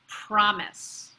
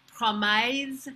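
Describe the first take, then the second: First: The word is said with an English accent. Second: The word is said with a French accent. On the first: "the pronunciation in English" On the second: "how a French person might say it"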